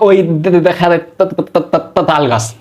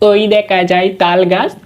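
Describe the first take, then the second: First: It is said with stuttering, repeated starting sounds. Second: It is rattled off quickly in one breath. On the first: A person who stutters reciting the poem. "তোতলা মানুষটা কেমনে বলবে? উনি বলবে এভাবে" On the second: A child reciting a poem for the teacher. "এভাবে তাড়াতাড়ি করে বলে দিতাম।"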